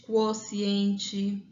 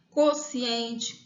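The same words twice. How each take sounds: First: "quociente" said kwosiente, with a kw glide; "quociente" with the w sound after k. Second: "Quociente" said kosiente, plain k; "Quociente" with a hard k and no u glide; quociente without the w. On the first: Teacher listing variants: "quociente" said kwosiente. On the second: Teacher listing variants: "Quociente" said kosiente. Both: Shown as a demonstration. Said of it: "uma dessas duas formas".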